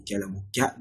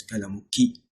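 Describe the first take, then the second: First: قلمك ending in an open "ka"; masculine -ka ending. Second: قلمك ending in "kee"; feminine -ki ending. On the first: Teacher addressing Muhammad as masculine, -ka ending. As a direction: say قلمك as "qalamu-ka", with a final a. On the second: Teacher showing the form not used for Muhammad, -ki ending. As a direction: say قلمك as "qalamu-ki", with a final ee. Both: Shown as a demonstration. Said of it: "not قلمك".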